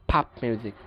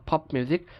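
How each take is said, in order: First: American ফাপ (pop) as PAHP; American pronunciation. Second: British পপ with rounded O; British pronunciation. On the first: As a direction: open AH in ফাপ. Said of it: "উচ্চারণ করে আ". (ফাপ-এ আ, American উচ্চারণ) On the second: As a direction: say পপ as POP. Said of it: "ব্রিটিশরা যেসব জায়গায় অ". (পপ-এ অ, British উচ্চারণ) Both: Shown as a demonstration.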